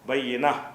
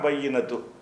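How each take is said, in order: First: The word ends with a soft half h. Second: The word ends with a clear tu sound. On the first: The reading stops at the end of the verse. "அந்த ஹா உச்சரிப்போட அரை ஹாவ் அரைவாசி ஹா வர்ற மாதிரி" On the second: The reading continues without a break. "ஒரு மூச்சை விடாமல் படிச்சுக்கிட்டு போனால் தான் பையினத்து"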